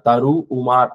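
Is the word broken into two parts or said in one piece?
two parts. The word is broken into two parts. The speaker calls it wrong. "சொல்லக்கூடாது"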